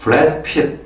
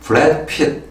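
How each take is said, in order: First: It is said with an American accent. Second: It is said with an American accent.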